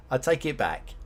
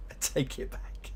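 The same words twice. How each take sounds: First: Said in the usual way. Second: Whispered "I take it back" under the breath. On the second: Shown as a demonstration.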